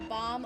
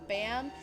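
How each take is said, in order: First: The vowel is an open 'ah' sound. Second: The vowel is a flat 'a' sound. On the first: The speaker calls it right. "bomb's also the correct way you're supposed to pronounce it" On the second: The speaker calls it wrong. "that's not correct. You're saying it wrong"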